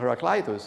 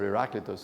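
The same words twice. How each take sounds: First: The name is said in English pronunciation. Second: The name is said in Greek pronunciation.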